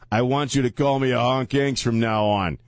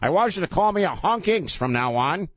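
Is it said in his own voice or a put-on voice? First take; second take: own voice; put-on voice. First: It is said in his normal voice. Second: It is said in a put-on white guy voice.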